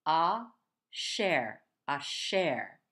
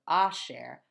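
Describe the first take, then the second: First: Asher stressed on the last syllable, a-SHER; stress on second syllable. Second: Asher stressed on the first syllable, A-sher; the wrong way, A-sher. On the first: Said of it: "the emphasis is gonna be over on the next syllable, not here". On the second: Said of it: "instead of asher". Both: Shown as a demonstration.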